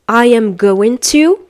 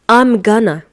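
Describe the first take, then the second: First: Each word is said separately in full. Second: The words blend into a reduced form. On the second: "which is going to be I'm gonna"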